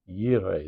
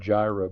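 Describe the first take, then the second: First: The word begins with a Y sound. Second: The word begins with a J sound. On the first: This is the original Hebrew form. "That's the actual pronunciation" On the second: This is the form that came into English. "as a J, not a Y"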